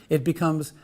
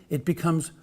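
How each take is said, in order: The two takes are said the same way.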